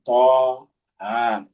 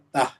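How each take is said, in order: First: Each letter name is said separately. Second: The letters are joined into one word. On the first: The speaker calls it right. "harus dibaca satu-satu" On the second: The speaker calls it wrong. "Tidak boleh kita baca tah"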